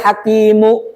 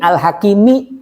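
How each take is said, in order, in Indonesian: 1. Kata ini berakhir dengan vokal 'u'. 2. Kata ini berakhir dengan vokal 'i'.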